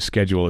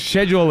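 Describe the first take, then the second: First: It is said the American way. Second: It is said the British or Canadian way.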